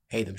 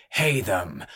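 First: Said in the usual way. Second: Announcer call. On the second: Acted. Ringmaster announces fighter name.

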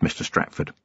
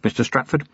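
First: Breathy low threat, barely voiced; whispered Mister Stratford; menacing whisper. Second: Said in the usual way. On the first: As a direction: hiss his name like a warning. Vimes menacing a captured killer.

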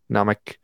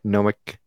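First: Nomic said "nahm-ick"; open-vowel pronunciation. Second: Nomic said "gnome-ick"; long-O pronunciation. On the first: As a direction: give Nomic an open AH at the start. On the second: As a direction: give Nomic a long O at the start. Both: Shown as a demonstration. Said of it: "Is it Nomic or Nomic?".

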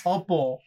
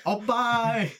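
First: Opal said clearly as oh-pal. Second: Opal said as oh-pie, laughing; said like oppai. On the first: Shown as a demonstration. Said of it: "I thought you said o-, opal". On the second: Retold or imitated. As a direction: Opal with the final l dropped, like oppai. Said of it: "I thought that meant tit in Japan".

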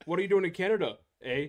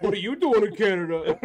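First: High, loud mock Canadian; Canadian accent. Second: Louder, higher hammed-up Canadian shout; Canadian accent. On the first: Co-host quoting a border scene, Canadian accent. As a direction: imitate a sitcom Canadian border challenge. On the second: Co-host repeating the border quote, loud Canadian accent. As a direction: belt it in a mock Canadian accent. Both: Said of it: "All I can ever think with Canadian accents".

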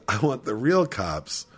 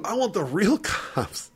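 First: Said in the usual way. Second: High, slow mock whine with a laugh; mock indignant demand. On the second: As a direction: imitate an outraged kid, stretching it out high. Drunk kid demanding other police, retold.

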